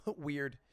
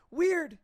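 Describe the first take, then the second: First: Said in the usual way. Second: Very high, loud exclaim; high mock astonishment. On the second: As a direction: shoot up in mock surprise. Mock-puzzled repetition.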